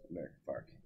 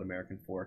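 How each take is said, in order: First: It is said the way locals pronounce it. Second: It is said the way outsiders pronounce it. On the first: The speaker is from the town. "And it's American Fark" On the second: The speaker is not from the town. "they don't call, call it American Fork unless you're not from there"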